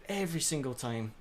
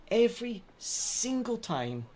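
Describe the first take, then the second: First: Said in the usual way. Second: High, slow, drawn-out lament; whiny wail. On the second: Real, not acted. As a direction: stretch it out in despair. Repeated complaint, wailed take.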